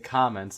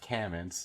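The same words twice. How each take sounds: First: It is said in a Brooklyn-Boston accent. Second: It is said in a neutral accent.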